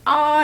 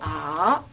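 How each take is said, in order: First: The pitch stays high and level throughout. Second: The pitch dips low, then rises again. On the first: "일성은 아 이렇게 한 옥타브 높여서 해" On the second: "삼성은 어떻게 하지? 아 이렇게 얘기하고"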